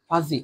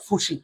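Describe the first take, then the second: First: The word sounds like 'fazi' with a z. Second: The word sounds like 'fusi' with an s. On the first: The speaker calls it right. "এটার উচ্চারণ হবে ফাজি" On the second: The speaker calls it wrong. "Not ফুসি"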